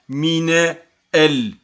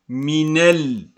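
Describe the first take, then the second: First: The two words are said separately, without linking. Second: The two words are linked into one sound. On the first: The speaker calls it wrong. "On ne dit pas mine el. Non, c'est faux" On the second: The speaker calls it right. "Il faut lire minel avec la liaison"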